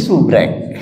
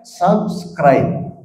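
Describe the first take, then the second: First: It is said in the local form 'subrek'. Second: It is said as the English 'subscribe'. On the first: "Jadi subrek" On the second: "ada harus ada subscribe"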